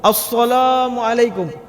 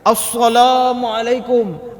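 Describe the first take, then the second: Both takes have the same delivery.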